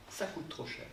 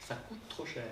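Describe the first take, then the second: No difference in how they are said.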